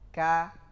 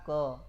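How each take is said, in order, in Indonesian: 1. Vokalnya a terbuka, tidak membulat. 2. Vokalnya bunyi membulat seperti o. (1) "adilkan saja pengucapan"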